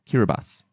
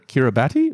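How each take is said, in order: First: The name is said differently from its spelling. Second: The name is said just as it is spelled. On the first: The speaker calls it right. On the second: The speaker calls it wrong.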